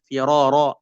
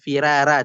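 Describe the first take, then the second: First: The r is pronounced thick and heavy. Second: The r is pronounced thin and light. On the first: The speaker calls it right. "tapi tetap firara" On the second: The speaker calls it wrong. "tidak dibaca firara"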